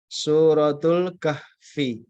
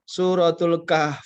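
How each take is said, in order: First: The last word ends with an added i vowel. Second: The last word ends on a bare f consonant. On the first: "kalau nggak disukun" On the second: "kalau disukun"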